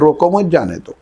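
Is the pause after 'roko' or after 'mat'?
after mat. The pause comes after 'mat'.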